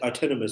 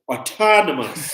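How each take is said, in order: First: The vowels are said with a narrow mouth. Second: The vowels are said with a wide mouth. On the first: The speaker calls it wrong. "I did not open that much bigger of mouth" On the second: The speaker calls it right. "Now I would say autonomous"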